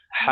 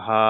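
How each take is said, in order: First: হা sounded from deep inside the throat; wide-open throaty হা, held as a model; big ha. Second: হা a little thick, mouth barely open; easy, thickish হা without throat squeeze; small ha. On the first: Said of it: "ভিতর থেকে আওয়াজটা আসবে". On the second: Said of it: "একটু মোটা মোটা আওয়াজ হবে". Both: Shown as a demonstration.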